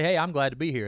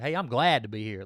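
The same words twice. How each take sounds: First: The word glad gets no special emphasis. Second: The word glad is strongly emphasized. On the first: "You can say" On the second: "can you kind of emphasize on glad?"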